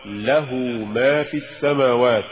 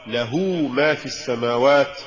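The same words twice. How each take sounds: First: Careful model of له ما; correct recitation. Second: Deliberate slip on له ما; mispronounced recitation. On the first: Narrator shows learners the fix for له ما, correct reading. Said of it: "والصواب". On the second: Narrator shows learners the error in له ما, wrong reading. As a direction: say له ما as the faulty reading. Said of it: "وكأن يقال". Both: Shown as a demonstration.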